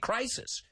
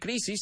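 First: The word has an English pronunciation. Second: The word has a Spanish pronunciation. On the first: The speaker calls it right. "say crisis" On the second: The speaker calls it wrong. "Don't say crisis"

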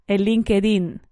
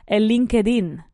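No difference in how they are said.

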